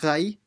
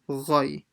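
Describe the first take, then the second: First: The syllable is light, with a thin vowel. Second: The syllable is heavy, with a full-mouthed vowel. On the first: The speaker calls it wrong. "So rai, it's roy" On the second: The speaker calls it right. "This is full mouth"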